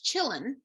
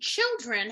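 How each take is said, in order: First: The d and r sounds are left out. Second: The d and r sounds are both pronounced.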